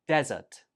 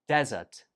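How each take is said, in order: No difference in how they are said.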